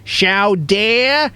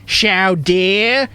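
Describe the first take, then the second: Both takes have the same delivery.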